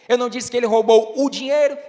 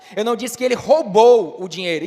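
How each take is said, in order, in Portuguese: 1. A palavra dinheiro está em destaque. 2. A palavra roubou está em destaque. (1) "então o que foi que ele roubou?" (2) "então o que foi que ele fez com o dinheiro?"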